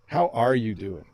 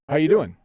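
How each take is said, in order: First: It sounds caring, with strong stress on are. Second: It sounds light and casual, like a greeting. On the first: The speaker really cares how the listener feels. "you emphasized are" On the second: It is only a greeting. "I'm just saying hi"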